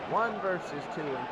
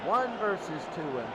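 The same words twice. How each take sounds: The two takes are said the same way.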